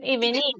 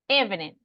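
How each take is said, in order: First: The stress is on the second syllable. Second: The stress is on the first syllable. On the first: The speaker calls it wrong. "Is it evening? No, right?" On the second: The speaker calls it right. "So that's actually on the first one, right?"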